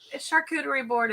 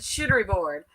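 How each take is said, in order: First: The first word is said as shar-coo-ter-ee. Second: The first word is said as shit-ter-ee. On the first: The speaker calls it right. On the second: The speaker calls it wrong.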